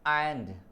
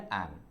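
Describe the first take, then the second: First: The word ends with a clear d sound. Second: The word ends on n, with no d. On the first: The speaker calls it wrong. "लोग इसको speech करते हैं एंड" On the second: The speaker calls it right. "डी silent हो जाएगा, इसका pronunciation केवल करेंगे एन"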